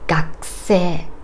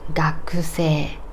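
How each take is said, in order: First: The u after the k is devoiced, barely heard. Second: The u after the k is fully voiced.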